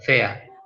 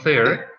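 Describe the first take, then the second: First: The word ends without any R sound. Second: The word ends with an audible R sound. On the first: The speaker calls it right. "The R is not here" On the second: The speaker calls it wrong. "Not fair"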